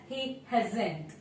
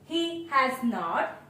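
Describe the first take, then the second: First: Has and not are merged into one contracted word. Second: Has and not are said as separate full words. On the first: "is pronounced as he hasn't" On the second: "he has not is pronounced as"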